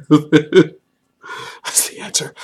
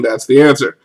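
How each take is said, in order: First: Very slow, voiceless repeat after a laugh; soft, breathless amused echo; laughing whisper. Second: Said in the usual way. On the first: Real, not acted. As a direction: wheeze it out through laughter.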